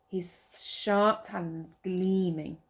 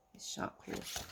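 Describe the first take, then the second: First: Said in the usual way. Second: His sharp claws breathed low and soft; hushed explaining aside. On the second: Shown as a demonstration. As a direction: murmur the easier word to the child.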